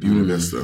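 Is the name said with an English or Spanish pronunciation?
English. It is pronounced the English way. "my whole life called it Buena Vista because everyone called it"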